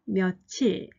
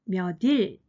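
First: It uses the pronunciation native speakers actually use. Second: It follows the sounds the spelling 몇일 predicts. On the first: This is how native speakers have always said it. "韓国の母語話者は、昔から몇칠、몇칠と言ってきました" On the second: This is how the spelling would theoretically be read. "理論的に몇일と読まなければいけません"

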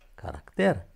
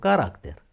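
First: The stress falls on the E syllable. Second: The stress falls on a non-E syllable. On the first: The speaker calls it right. "Accentul pe E" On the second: The speaker calls it wrong. "Deci nu caracter"

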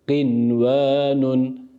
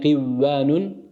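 First: The n is pronounced clearly before the w. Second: The n merges into the following w sound. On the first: The speaker calls it right. "Buradaki nunu sükunluğuyla okuyoruz" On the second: The speaker calls it wrong. "givvanun şeklinde idgam yaparak okumuyoruz"

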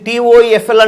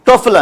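First: Each letter is spoken separately. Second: It is spoken as a single word. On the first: The speaker calls it wrong. "మనం దీన్ని టీఓఈఎఫ్ఎల్ అంటామా?" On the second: The speaker calls it right. "టోఫెల్ అంటాం"

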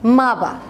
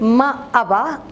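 First: The words are said fast and merged. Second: The words are said slowly and kept separate.

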